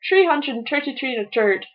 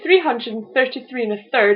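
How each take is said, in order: First: It is said in an Irish accent, dropping th. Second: It is said in the speaker's ordinary accent.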